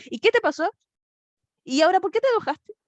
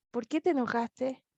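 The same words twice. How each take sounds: First: Higher and louder scolding questions; annoyed parent. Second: Softer, gentle questioning; loving confrontation. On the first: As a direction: snap at the child in mock irritation. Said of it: "Otros nos dicen". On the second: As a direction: ask kindly, like a caring father. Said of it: "Dios está confrontando amorosamente". (Dios pregunta a Caín con cariño, suave) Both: Retold or imitated.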